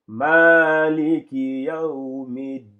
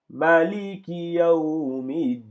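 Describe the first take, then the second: First: Chanted "Maliki" with a long held first vowel; lengthened "Ma". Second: Chanted "Maliki" with a short first vowel. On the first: Teacher showing the Warsh reading, chanted with lengthened "Ma". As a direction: stretch the "Ma" of "Maliki", loud and slow. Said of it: "ici ils allongent ici le ma". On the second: Teacher reciting the Hafs reading, chanted with short "Ma". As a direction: recite slowly, keeping the "Ma" of "Maliki" unlengthened. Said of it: "on n'allonge pas le ma". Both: Shown as a demonstration.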